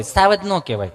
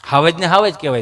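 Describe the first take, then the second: First: "સાવજ" with an opening S; bookish S pronunciation. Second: "હાવજ" with an opening H; local H pronunciation. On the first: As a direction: say "સાવજ" starting with S, not H. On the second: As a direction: say "હાવજ" the village way, starting with H. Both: Shown as a demonstration.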